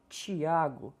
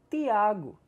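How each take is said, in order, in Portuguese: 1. O T é falado do jeito não nordestino. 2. O T é falado do jeito nordestino. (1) "Nordestinos não pronunciam Tiago" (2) "pronunciam Tiago"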